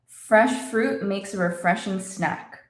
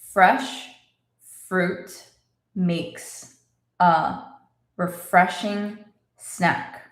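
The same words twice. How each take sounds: First: The sentence is spoken faster still. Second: The sentence is spoken slowly. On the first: "And a little faster" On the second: "Let's say it slowly"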